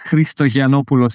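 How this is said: The name is said with Greek pronunciation. "if you want to be Greek"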